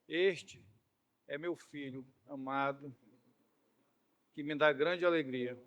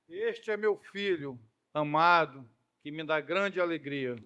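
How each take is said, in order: First: It is said in a calm, plain voice. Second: It is said in a loud, explosive voice.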